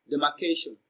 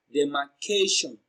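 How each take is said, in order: First: Said in the usual way. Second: "demarcation" slowly, syllable by syllable, with KAY held longer; broken into syllables. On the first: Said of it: "demarcation is pronounced". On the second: Shown as a demonstration. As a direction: spell out "demarcation" by sound, de-ma-KAY-shun. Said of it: "pronounced and broken down into syllables".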